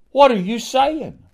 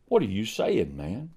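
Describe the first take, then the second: First: Indignant challenge. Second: Soft rebuke. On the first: Preacher challenges the doubter. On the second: Preacher repeats challenge softly. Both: Acted.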